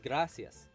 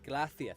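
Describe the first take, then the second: First: The c is said as a plain s sound. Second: The c is said with a lisp, like th. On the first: "from like the Spanish that I knew, you'd say" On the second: "But in Spain, you say"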